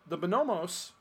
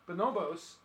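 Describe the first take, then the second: First: Bonomos with an M, buh-NO-mohs; misread name. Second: Bonobos with a B, buh-NO-bohs; corrected name. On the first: Reading out a misspelled title, Bonomos with an M. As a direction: put an M in the last syllable of Bonomos. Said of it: "I think I said the bonomos 'cause I misspelled it". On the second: Correcting the misspelled title, Bonobos with a B. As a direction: put a B in the last syllable of Bonobos. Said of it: "It is the bonobos". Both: Real, not acted.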